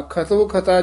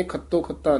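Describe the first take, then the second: First: ਖਤੋ ਖਤਾ with light single t; soft pronunciation. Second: ਖੱਤੋ ਖੱਤਾ with doubled t; quick, softer-voiced ਖੱਤੋ ਖੱਤਾ with geminated t; wrong hard doubling. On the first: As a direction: say ਖਤੋ ਖਤਾ loosely, no doubled t. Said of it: "ਇਹ ਪੋਲੇ ਉਚਾਰਨ ਕਰਨੇ ਨੇ". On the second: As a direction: show the mistake, tight long t in ਖੱਤੋ ਖੱਤਾ. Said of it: "ਖੱਤੋ ਖੱਤਾ ਨਹੀਂ ਕਹਿਣਾ". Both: Shown as a demonstration.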